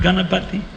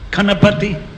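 First: The word begins with a 'g' sound. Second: The word begins with a 'k' sound. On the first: This is the proper Sanskrit pronunciation. The speaker calls it right. "not Ganapati" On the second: This is how it is said in Tamil. The speaker calls it wrong.

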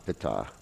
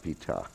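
First: The vowel after the p is short. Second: The vowel after the p is long. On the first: The speaker calls it right. "it's Adma Pita" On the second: The speaker calls it wrong. "not Pita. You know, it's not a long I there"

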